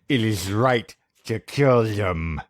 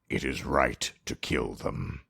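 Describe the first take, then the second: First: It is read in a high-pitched put-on voice. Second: It is read in a normal voice.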